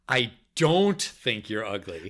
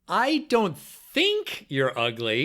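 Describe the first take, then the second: First: The word "don't" carries the emphasis. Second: The word "think" carries the emphasis. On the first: "then the second time, the second word" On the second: "each time you're going to emphasize a different word"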